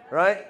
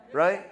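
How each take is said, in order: Both takes have the same delivery.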